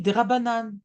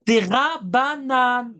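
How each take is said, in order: First: Said in the usual way. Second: "Des Rabbanan" drawn out very slowly, syllable by syllable; "Des Rabbanan" slow and higher, heavily spelled out; emphatic repetition. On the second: Real, not acted. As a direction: stretch each syllable of "Des Rabbanan" to drive it home. Repeats the answer to drive it home.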